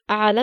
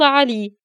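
First: The word ends with a long 'a' sound. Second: The word ends with a long 'ee' sound. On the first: The speaker calls it right. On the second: The speaker calls it wrong.

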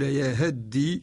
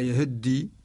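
First: The short vowel is pronounced fully. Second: The short vowel is quickly and partly pronounced. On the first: "بدل أن يقول يهدي" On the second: "هذا نوع من الاختلاس"

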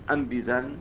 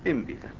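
First: The word opens with a firm 'a' vowel. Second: The word opens with an 'i' vowel. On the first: The speaker calls it wrong. "كما قد يتوهم انبذا" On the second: The speaker calls it right. "فتكون مكسورة وليست همزة قطع"

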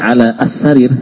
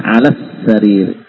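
First: The article's a-vowel is pronounced as a separate sound. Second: The article's a-vowel drops, linking straight into s. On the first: The speaker calls it wrong. "Jadi bukan lagi ala as-sarir" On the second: The speaker calls it right. "Ada hilang sudah. Langsung kesin langsung ya"

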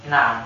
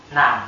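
Both takes have the same delivery.

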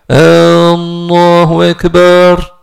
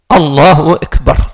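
First: The opening vowel of Allah is drawn out. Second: The opening vowel of Allah is short. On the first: The speaker calls it wrong. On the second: The speaker calls it right.

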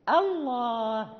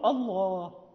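First: The opening hamza is light and thin. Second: The opening hamza is heavy and thickened. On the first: The speaker calls it right. "لابد أن ننطق بالهمزة مرققة" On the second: The speaker calls it wrong. "لا نقول الله"

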